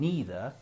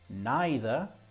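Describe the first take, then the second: First: It is said with the American pronunciation. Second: It is said with the British pronunciation. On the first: "is the American" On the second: "is the British"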